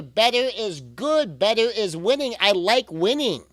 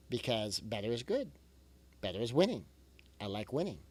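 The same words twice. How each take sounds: First: Louder, higher, cheering it on; rally the listener like a coach; a pep-talk chant with a slow, punchy start; upbeat cheer. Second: Quieter, gently encouraging; a calm closing reminder, much softer; soft reassurance. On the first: Cheering on a struggling parent. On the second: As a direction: ease the listener down softly. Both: Real, not acted.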